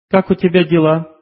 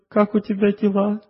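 First: It sounds superior and subtly reproachful. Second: It sounds humble and self-deprecating. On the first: The other person is not good enough. "«Я хорошая, ты плохой». Вроде бы все правильно сказано, но в этой фразе есть неуловимая деталь" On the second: The speaker sees herself as worse than the other. "Ты хороший, я плохая"

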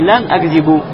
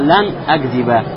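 First: The verb ends with a u vowel. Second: The verb ends with an a vowel. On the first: The speaker calls it wrong. "Уже не лян акзибу" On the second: The speaker calls it right. "поменяла ... харакат в конце глагола на фатху"

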